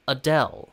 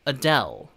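No difference in how they are said.

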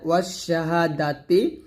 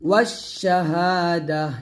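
First: The word ends with a full 'ti' sound. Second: The word ends with a soft 'h' sound. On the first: The reading continues without stopping. "এখানে আছে ওয়াশ শাহাদাতি আছে" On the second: The reader stops at this word. "সেখানে থামলে এই তাটা জজমলা হা হয়ে যাবে"

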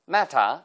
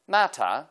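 First: It is said with a British accent. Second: The same.

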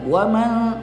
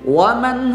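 First: The final n sound is blurred and unclear. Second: The final n sound is pronounced clearly. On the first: The speaker calls it wrong. "Tidak boleh samar-samar nunnya" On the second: The speaker calls it right. "Harus jelas nunnya"

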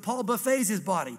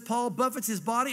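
First: The word 'buffets' is said as 'buff-AYS', ending in an 'ays' sound. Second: The word 'buffets' is said as 'BUFF-its', ending in a 'ts' sound. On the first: Paul feeds his body at a food buffet. "I read it this way" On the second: Paul strikes and disciplines his body. "You know that scripture that says Paul buffets his body?"

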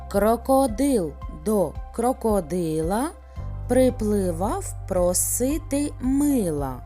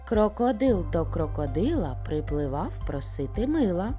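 First: It is said at a slow, ordinary pace. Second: It is said at the fastest pace. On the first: "Повторюйте за мною" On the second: "а зараз ще швидше"

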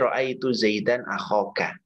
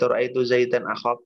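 First: The last word ends with a final vowel. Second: The last word ends on a bare consonant. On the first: The speaker calls it right. "Kayaknya harus dibaca ya" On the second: The speaker calls it wrong. "Jadi biar nggak akhok"

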